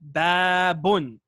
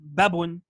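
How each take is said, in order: First: The first vowel is stretched long. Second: The first vowel is short. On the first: The speaker calls it right. "Notice I'm stretching the ba" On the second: The speaker calls it wrong. "Not babun"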